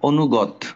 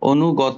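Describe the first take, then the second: First: The word stops on a final consonant. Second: The word ends with an added 'o' vowel. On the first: The speaker calls it wrong. "যে তুমি বললা অনুগত, ঠিক আছে, থাইমা গেলা।" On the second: The speaker calls it right. "যদি ত থাকে তাহলে থামবা না, ও ও পড়বা।"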